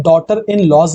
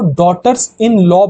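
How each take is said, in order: First: "daughter in laws", plural s sounded on laws; wrong plural demonstrated. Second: "daughters in law", plural s sounded on daughters; correct plural demonstrated. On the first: Teacher rejecting a wrong plural, "daughter in laws" said slowly with final s. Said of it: "नहीं". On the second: Teacher showing students the correct plural, "daughters in law" said deliberately. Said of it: "plural करना चाहते हैं". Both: Shown as a demonstration.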